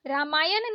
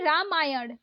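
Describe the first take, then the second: First: रामायण ending in plain न; wrong dental N. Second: रामायण ending in curled-tongue ण; correct retroflex ण. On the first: Teacher showing learners the mistake, dental-N रामायण. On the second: Teacher correcting learners, retroflex रामायण. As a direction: curl back for ण in रामायण. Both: Shown as a demonstration. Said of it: "नहीं".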